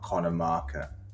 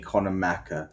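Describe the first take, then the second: First: The surname sounds like Marker. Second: The surname sounds like Macker. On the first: This is the name's proper form. The speaker calls it right. "not Connor Marker" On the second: Schoolmates said the name this way. The speaker calls it wrong. "they couldn't pronounce my surname right"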